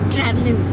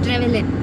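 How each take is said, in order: First: The first syllable sounds like 'tra'. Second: The first syllable sounds like 'tre'. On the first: The speaker calls it wrong. "కాదు" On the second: The speaker calls it right. "ట్రెవెలిన్ అంటారంట"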